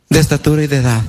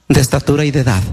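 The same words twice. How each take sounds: The two takes are said the same way.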